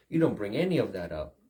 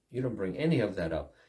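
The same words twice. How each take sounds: The two takes are said the same way.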